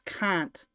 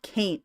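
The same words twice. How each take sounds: First: The vowel sounds like "ah". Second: The vowel sounds like "eh". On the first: The speaker calls it right. "It's ah, not eh" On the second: The speaker calls it wrong. "It's not can't"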